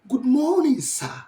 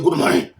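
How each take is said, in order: First: It is said in a polite, friendly tone. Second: It is said in an angry tone.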